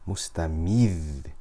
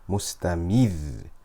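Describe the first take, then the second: No difference in how they are said.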